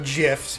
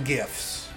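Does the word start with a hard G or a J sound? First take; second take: J sound; hard G. First: The word starts with a J sound. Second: The word starts with a hard G sound. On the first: The speaker calls it wrong. "if you're one of those losers" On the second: The speaker calls it right. "it sounds like you're saying, like, GIF. It's a gift"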